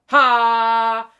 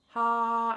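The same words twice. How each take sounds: First: It is said loudly. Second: It is said softly.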